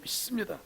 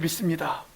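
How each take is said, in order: First: The s sound is said tense and doubled. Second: The s sound is said plain and soft. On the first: A more fervent declaration of belief. "적어도 쌍시옷이 들어가 줘야" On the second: An ordinary statement of belief. "그냥 이 정도 차원으로 이야기하지를 않아요"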